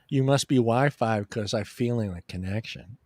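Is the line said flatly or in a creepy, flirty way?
flatly. The line is said flatly, without flirting.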